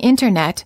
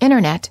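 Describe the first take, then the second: First: The T after the N is clearly pronounced. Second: The T after the N is dropped entirely. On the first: "Instead of saying internet" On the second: "you will frequently hear Americans say internet"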